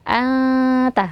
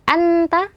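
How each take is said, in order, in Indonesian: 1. Huruf n disamarkan dengan dengung panjang di hidung. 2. Huruf n dilafalkan penuh dan jelas. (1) "disamarkan nunnya" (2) "tidak langsung ke makhraj nun menjadi"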